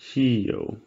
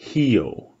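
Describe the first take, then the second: First: The word begins with an H sound. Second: The same.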